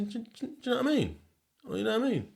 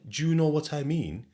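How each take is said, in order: First: "do you know what I mean" clipped into Sheffield slur, much higher; fast slurred Sheffield "know what I mean"; Sheffield accent. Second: Said in the usual way. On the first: Shown as a demonstration. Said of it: "I say". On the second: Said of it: "I don't say".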